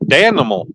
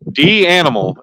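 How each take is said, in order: First: It is blended into one word, 'Dan-imal'. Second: It starts with the letter D, then 'animal'. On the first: The speaker calls it right. "no, no, it's it's Danimal" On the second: The speaker calls it wrong. "Some people they're like D animal"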